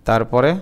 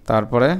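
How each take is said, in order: Both takes have the same delivery.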